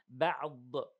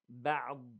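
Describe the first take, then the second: First: The final consonant is released with an echoing bounce. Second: The final consonant is held without any bounce. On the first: The speaker calls it wrong. "we don't give it as a قلقلة. We don't say بعض" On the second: The speaker calls it right. "So بعض"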